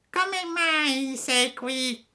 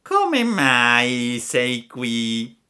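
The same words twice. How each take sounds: First: Very high, slow cat voice; the cat parrots the fox in a thin high voice; echoing cat. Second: Very slow, drawn-out fox voice; sly fox. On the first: (il gatto ripete, voce acutissima e lenta) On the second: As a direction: stretch every word like a cunning fox. (volpe astuta, voce lentissima) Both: Acted. Ripeté il gatto.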